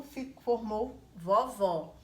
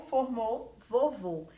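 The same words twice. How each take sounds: First: Vovó com o aberto e tônico. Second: Vovô com o fechado e tônico. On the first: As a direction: diga vovó abrindo bem o ó. (vovó com vogal aberta) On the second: (vovô com vogal fechada) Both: Shown as a demonstration. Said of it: "vocês perceberam algo no meu tom de voz".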